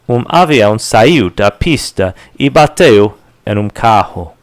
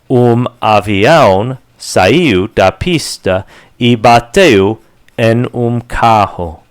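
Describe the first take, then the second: First: The sentence is spoken quickly. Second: The sentence is spoken at moderate speed. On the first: "And faster" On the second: "A little faster"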